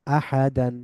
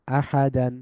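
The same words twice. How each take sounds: The two takes are said the same way.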